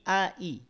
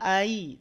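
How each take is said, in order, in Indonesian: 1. Kedua hamzah diucapkan jelas dan terpisah. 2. Hamzah kedua dilemahkan dan menyatu. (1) "tapi ai. ... a-nya jelas, i-nya jelas" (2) "Bukan ai"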